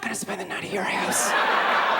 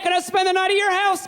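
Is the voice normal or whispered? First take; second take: whispered; normal. First: It is said in a whisper. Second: It is said in a normal voice.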